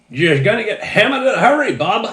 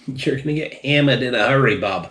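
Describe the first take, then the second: First: A much higher, louder, hammed-up Down East Maine accent. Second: Put-on a clumsy first try at a Down East Maine accent; bad Down East accent. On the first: Reviewer nails the warning on the third try in a Down East accent. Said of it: "There we go. That might have worked". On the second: Reviewer warns viewers about strong tea in a botched Down East accent. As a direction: Down East accent that slides toward Boston, a little higher. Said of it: "the worst fucking down Easter accent".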